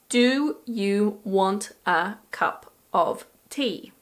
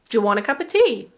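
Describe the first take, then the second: First: Every word is said slowly and fully. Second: Words are shortened even more, very quickly. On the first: The speaker calls it wrong. "this sentence pronounced slowly is" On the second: The speaker calls it right. "Or even"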